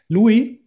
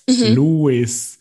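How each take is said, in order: First: The final s is silent, French style. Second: The final s is clearly pronounced. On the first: The speaker calls it wrong. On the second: The speaker calls it right.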